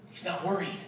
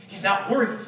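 First: He's not worried repeated much softer; hushed repeat. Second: Said in the usual way. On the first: Shown as a demonstration. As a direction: let He's not worried fade almost to a hush.

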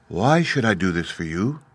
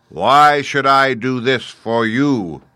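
First: Lightly voiced queenly lady, restrained; gracious lady's measured question; lovely lady. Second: Loud, high, very slow challenge; imperious, drawn-out giant voice; booming Great Head. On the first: Lovely lady answers the Scarecrow. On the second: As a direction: boom it slowly like a giant oracle. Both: A narrator's reading.

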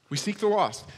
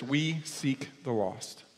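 First: The same words again, higher and firmer; emphatic repeat. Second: Soft and slow, almost to yourself; quiet slow statement. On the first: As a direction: repeat it higher, as a firm declaration. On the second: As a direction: say it quietly and slowly, letting it sink in. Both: Shown as a demonstration.

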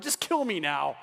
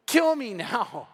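First: Low, resigned, acted plea; weary plea. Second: Very slow, stretched mock-desperate plea; drawn-out plea. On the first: Moses to the Lord about complainers, resigned. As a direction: drop low as a fed-up prophet. Moses begging God, fed up. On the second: Moses begging the Lord, exaggerated desperation. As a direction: wail it slowly, hammed-up despair.

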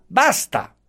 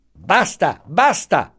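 First: "basta!" pitched much higher as the last cut-off; final sharp basta. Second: Impatient cutting off. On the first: Commissioner silences the protesting professor, "basta!" high and final. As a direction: slam the door on him with "basta!". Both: A narrator's reading. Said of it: "lo interruppe subito".

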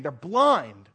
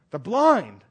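First: Said in the usual way. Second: "blind" pressed harder, with a firm fall; emphatic repeat. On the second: Acted. Preacher driving the point home, "blind" stressed firmly. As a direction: lean into "blind" the second time.

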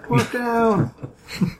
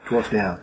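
First: High, drawn-out cry of a casualty; high-pitched hammed-up distress call; mock alarm call. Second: Said in the usual way. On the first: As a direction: call it out like a field medic. Mock emergency call, repeated.

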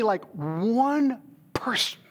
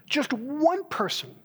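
First: Breathy whispered plea, slow; whispered prayer. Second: Higher, slow, aching plea; pleading prayer. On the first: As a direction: whisper it like a private prayer to God. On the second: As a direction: lift the voice as if begging God for one soul. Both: Retold or imitated. Retold prayer to God.

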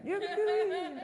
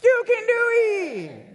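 First: High but softer Cajun-accent call; a high Cajun-accent squeal, held back; Water Boy accent. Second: High, loud, slow Cajun-accent yell; Water Boy accent. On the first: Preacher repeating the line in a high, softer Cajun accent. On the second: Preacher leading the crowd in a high loud Cajun-accent yell. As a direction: belt it out in a Cajun accent, drawn out. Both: Shown as a demonstration. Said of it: "You gotta do it with the accent".

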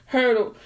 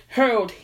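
Both takes have the same delivery.

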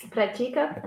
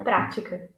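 First: Pratica stressed on "ti", rising; stress on second syllable. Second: Prática stressed on open "prá", falling; stress on first syllable. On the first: Teacher recapping the difference, "Pratica" stressed on TI. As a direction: say "Pratica" as pra-TI-ca. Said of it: "they are different". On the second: Teacher recapping the difference, "prática" stressed on PRÁ. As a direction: say "prática" as PRA-ti-ca. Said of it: "it gives a stress for the letter A". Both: Shown as a demonstration.

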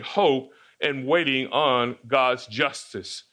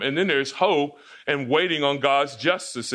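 First: Slow, spelling out "hope and waiting on God's justice"; slow, weighty restatement. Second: Said in the usual way. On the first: Shown as a demonstration. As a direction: lay down "hope and waiting on God's justice" slowly as the main point. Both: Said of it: "that's our focus for this morning".

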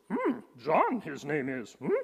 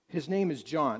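First: Hammed-up little sage voice with questioning hums; inverted phrasing in a put-on creature voice, humming either side; Yoda. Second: Said in the usual way. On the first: Preacher jokingly retells the verse to the congregation, Yoda impression. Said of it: "better translated in the Yoda version".

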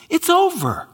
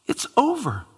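First: "over" said higher and falling hard; stress on over. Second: Said in the usual way. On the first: Shown as a demonstration. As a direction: land a high, final "over". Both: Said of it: "repeated line, different take".

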